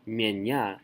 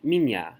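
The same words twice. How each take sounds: First: Mienya with a full ye in the first syllable; unreduced e. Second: Minya with the first vowel reduced to ee. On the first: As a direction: say "mienya" as myen-YA, spelled-out vowel. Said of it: "you don't say mienya". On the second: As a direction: say "minya" as mee-NYA. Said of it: "you say minya". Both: Shown as a demonstration.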